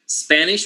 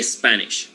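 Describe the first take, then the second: First: Said in the usual way. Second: "Spanish" with an E sound added in front, es-Spanish; Spanish-speaker epenthetic vowel. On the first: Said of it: "we say Spanish". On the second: Shown as a demonstration. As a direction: put an extra "eh" before "Spanish", making es-panish. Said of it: "usually add the vowel E at the beginning".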